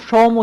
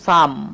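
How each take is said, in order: First: The vowel is pronounced like an 'o' sound. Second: The vowel is pronounced like an 'a' sound. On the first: The speaker calls it wrong. "এটা কিন্তু সোম উচ্চারণ করা যাবে না।" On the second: The speaker calls it right. "তো এটা উচ্চারণ করব সাম।"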